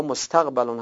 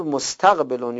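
First: مستقبلون said as mustaqbilun, with an i before the final l; Arabic مستقبلون read with a short i: mustaqbilun; second reading. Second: مستقبلون said as mustaqbalun, with an a before the final l; Arabic مستقبلون read with a short a: mustaqbalun; first reading. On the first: Teacher offering the alternative reading, mustaqbilun. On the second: Teacher giving the first of two readings, mustaqbalun. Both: Shown as a demonstration. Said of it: "هر دو، دو تلفظ درسته".

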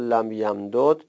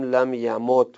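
First: لم یمدد said slowly with both دال sounds kept apart, lam yamdud; unmerged form. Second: لم یمد said with the two دال merged into one doubled دال, lam yamudd; merged form. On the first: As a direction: spell out لم یمدد slowly, each دال separate. (لم یمدد آهسته با دو دال جدا) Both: Shown as a demonstration.

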